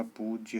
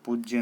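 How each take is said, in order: First: पूज्य with a long "oo"; correct form. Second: पूज्य said louder, with short vowel; wrong form. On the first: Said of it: "होता है". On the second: Teacher rejects the error, louder पूज्य. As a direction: hit पूज्य as the mistaken version. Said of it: "नहीं होता". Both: Shown as a demonstration.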